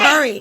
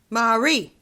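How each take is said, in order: First: The name is said as Murray. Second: The name is said as Marie. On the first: The speaker calls it wrong. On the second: The speaker calls it right. "how can you mispronounce M- Marie? Marie, not"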